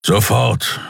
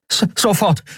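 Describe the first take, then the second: First: Gruff, curt command from a big beast; firm grumbled command; grumbled order. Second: Put-on high-pitched boy, tripping on the first sound; high, stammering young helper; stammered eager reply. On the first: A narrator's reading. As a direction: order it with a growl, no stammer. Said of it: "brummte er". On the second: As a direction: jump to obey with a stutter. Startled boy obeys an order.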